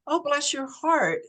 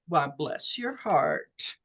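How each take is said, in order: First: It sounds like a sincere, sympathetic endearment. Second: It sounds like a sarcastic, passive-aggressive jab.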